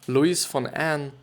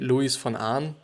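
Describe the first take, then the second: First: The name is pronounced the English way. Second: The name is pronounced the German way.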